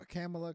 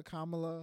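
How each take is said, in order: First: "Kamala" said "KAM-uh-luh"; alternative pronunciation. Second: "Kamala" said "KAH-muh-luh"; corrected pronunciation. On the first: Trying the name after correction, "Kamala" as "KAM-uh-luh". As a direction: say "Kamala" with the A of "cam". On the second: Trying cohost's version of the name, "Kamala" as "KAH-muh-luh". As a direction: say "Kamala" with an open AH first. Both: Shown as a demonstration. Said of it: "It's Kamala".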